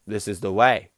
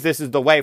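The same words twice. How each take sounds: First: Lower, quiet solemn "This is the way."; deadpan the catchphrase low and grave; solemn Mandalorian line. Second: Said in the usual way. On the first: Retold or imitated. Answering a silly question with the grave catchphrase, lower and quieter. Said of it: "you can use This Is the Way as anything". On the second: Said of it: "you can use".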